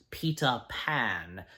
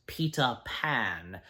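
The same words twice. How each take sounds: First: British accent with a clearly pronounced T. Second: The same.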